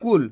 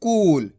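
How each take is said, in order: First: कुल with a short, quick u; short vowel, not stretched. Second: कूल with the oo stretched out long; long vowel, held. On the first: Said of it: "इसको कैसे पढ़ रहे हैं". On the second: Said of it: "बड़े ऊ की मात्रा को खींच के पढ़ा जाता है". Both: Shown as a demonstration.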